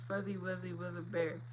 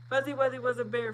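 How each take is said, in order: First: It is said at a normal, unhurried pace. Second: It is said very fast.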